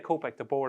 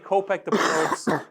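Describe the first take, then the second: First: The final S is silent at the end. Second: The final S is pronounced at the end. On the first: The speaker calls it right. "I should say Kopek the board" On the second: The speaker calls it wrong. "I keep pronouncing the S"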